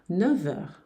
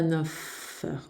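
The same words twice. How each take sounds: First: Neuf ends with a v sound before heures. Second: Neuf ends with an f sound before heures. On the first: The speaker calls it right. "Vai ser neuf heures como V de vida" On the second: The speaker calls it wrong. "Você não vai dizer neuf heures, confundir f"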